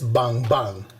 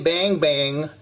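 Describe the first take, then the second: First: It is said with a Surinamese pronunciation. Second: It is said with an American pronunciation. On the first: The speaker calls it right. "No, it is" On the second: The speaker calls it wrong. "Don't try to Americanize it. Don't say"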